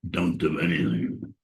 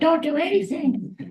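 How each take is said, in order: First: It is said in a lower voice. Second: It is said in a normal voice.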